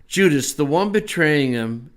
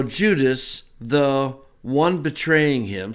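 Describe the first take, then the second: First: Said in the usual way. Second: Slow, parsing each word of the Greek; slow word-by-word reading. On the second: Shown as a demonstration. Teacher to class, slowly parsing the verse. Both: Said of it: "so there's your participle".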